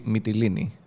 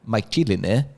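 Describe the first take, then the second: First: The name is said with Greek pronunciation. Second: The name is said with English pronunciation. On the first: The speaker calls it right. "it should be Mytilini" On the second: The speaker calls it wrong. "not Mytilene"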